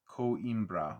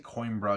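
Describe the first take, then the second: First: The name is said in three separate syllables. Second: The name is said in two syllables, like coin. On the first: "like three syllables" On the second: "because it's only one letter off from coin"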